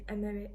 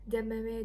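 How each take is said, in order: First: The word begins without a d sound. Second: The word begins with a d sound. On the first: This is how the speaker's own dialect says it. "I drop the d and I just say emere" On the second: This is how people in some other places say it. "in some of the places you might hear people saying detere or demere"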